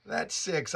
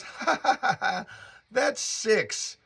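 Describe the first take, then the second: First: Said in the usual way. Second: High, giggly mock laugh leading into the name; imitating her laugh. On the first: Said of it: "And she goes". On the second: Girlfriend laughing off the witch remark, imitated giggle. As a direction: play her amused laugh, pitched up. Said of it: "And she laughs".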